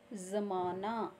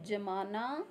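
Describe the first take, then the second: First: ज़माना with a z, said slowly; z in zamaana. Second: जमाना with a plain ज; plain j in jamaana. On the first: (नुक्ते के साथ ज़माना) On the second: (बिना नुक्ते के जमाना) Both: Shown as a demonstration.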